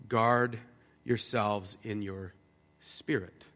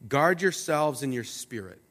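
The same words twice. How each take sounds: First: Guard yourselves in your spirit said slowly, each word set apart, softer; measured, deliberate second time; slow emphatic repeat. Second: Said in the usual way. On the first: Shown as a demonstration. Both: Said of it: "It's actually said twice".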